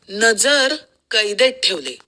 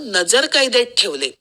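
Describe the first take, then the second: First: There is a pause after the first word. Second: It runs on with no pause after the first word.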